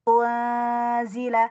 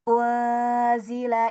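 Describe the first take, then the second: No difference in how they are said.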